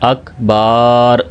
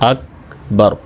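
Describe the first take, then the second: First: The second vowel is drawn out long. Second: Both vowels are kept short. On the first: The speaker calls it wrong. "बा को लंबा करके पढ़ देते हैं" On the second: The speaker calls it right. "तो सही तलफ़ुज़ क्या है?"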